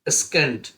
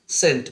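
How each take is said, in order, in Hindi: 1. शुरुआती s के बाद k की आवाज़ आती है। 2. शुरुआती s के बाद k की आवाज़ नहीं आती। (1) "अगर सी साइलेंट नहीं होता" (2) "इसको क्या पढ़ते हैं"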